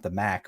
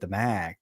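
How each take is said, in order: First: The vowel in Mac is short. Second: The vowel in Mac is drawn out. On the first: It names the Mid-American Conference. "not the Mac" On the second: It names the conference of the New York schools. "I need to exaggerate"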